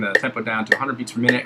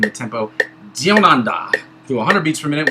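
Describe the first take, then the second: First: It is said in the speaker's normal accent. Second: It is said in a put-on Australian accent.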